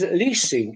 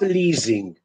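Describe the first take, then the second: First: The middle consonant is a hissing s sound. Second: The middle consonant is a buzzing z sound. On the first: The speaker calls it right. "Leasing is" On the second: The speaker calls it wrong. "It's not"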